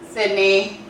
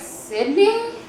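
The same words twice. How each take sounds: First: It is said firmly and confidently. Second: It is said hesitantly and unsure.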